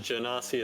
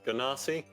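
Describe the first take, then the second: First: It begins with a soft j sound, like genie. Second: It begins with a hard g sound. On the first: The name comes from the word genie. The speaker calls it right. "the word genie" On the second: The name was only ever read, never heard. The speaker calls it wrong. "I just pronounced them wrong"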